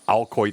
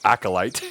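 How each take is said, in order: First: The word is pronounced like 'al-coit'. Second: The word is pronounced like 'ack-o-lite'. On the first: The speaker calls it wrong. "I was saying it wrong all that time" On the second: The speaker calls it right. "It's clearly acolyte"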